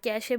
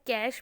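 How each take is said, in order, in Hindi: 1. शब्द का अंत एक जुड़े हुए ay स्वर से होता है। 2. शब्द का अंत sh ध्वनि से होता है। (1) "कैशे भी प्रोनाउंस किया जाता है" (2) "इसको कैश भी प्रोनाउंस किया जाता है"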